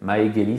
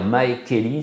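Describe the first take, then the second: First: The second word starts with a voiced G sound. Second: The second word starts with an unvoiced K sound. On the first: The speaker calls it right. "ça passe tout seul" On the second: The speaker calls it wrong. "dire Mae Keli, c'est pénible"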